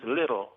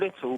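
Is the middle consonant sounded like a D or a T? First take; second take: D; T. First: The middle consonant sounds like a soft D. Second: The middle consonant is a clear T sound. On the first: The speaker calls it wrong. "replace the T with a D" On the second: The speaker calls it right. "replace the T with a D"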